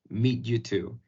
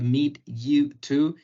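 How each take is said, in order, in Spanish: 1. Las palabras se unen en una sola unidad fluida. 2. Las palabras se dicen por separado, con pausas. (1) "decirlo todo como" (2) "no separar"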